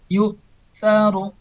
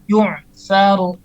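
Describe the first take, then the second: First: The middle sound is a firm glottal stop. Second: The middle sound is a throaty ain. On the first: The speaker calls it right. "Harus tegas" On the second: The speaker calls it wrong. "tapi salah. ... Padahal tidak seperti itu"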